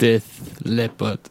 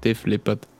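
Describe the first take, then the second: First: The first word ends with a th sound. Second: The first word ends with an f sound. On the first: The speaker calls it wrong. "Das habe ich jetzt falsch gesagt" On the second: The speaker calls it right. "Das ist nämlich mit F"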